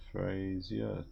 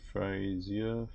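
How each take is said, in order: Both takes have the same delivery.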